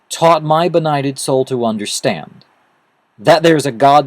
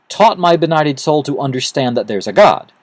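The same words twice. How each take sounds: First: There is a pause after 'understand'. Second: There is no pause after 'understand'.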